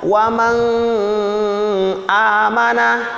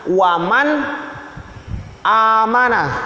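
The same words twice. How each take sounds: First: The n sound is blurred into the next vowel. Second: The n sound is pronounced clearly and distinctly. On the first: The speaker calls it wrong. "Jangan kalian baca samar-samar. Jangan kalian baca waman amanah, salah" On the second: The speaker calls it right. "nunnya jelas"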